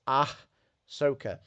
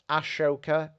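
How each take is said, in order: First: The middle consonant is a plain 's' sound. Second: The middle consonant is a 'sh' sound. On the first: The speaker calls it right. "it's Ahsoka" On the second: The speaker calls it wrong. "it's not Ashoka"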